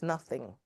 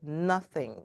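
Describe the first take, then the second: First: Said in the usual way. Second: "nothing" set apart and lightly stressed; emphasis on "nothing". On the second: Shown as a demonstration. Speaker quoting the verse's key word, "nothing" emphasized. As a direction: give "nothing" its own deliberate weight. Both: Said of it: "I always emphasize that word".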